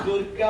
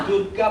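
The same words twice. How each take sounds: Both takes have the same delivery.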